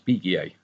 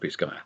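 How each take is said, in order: First: The name is pronounced in a French style. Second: The name is pronounced in an American style. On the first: The speaker calls it wrong. "because I had O-level French, I used to pronounce that as Biguier" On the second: The speaker calls it right. "in America you pronounce that Bisguier"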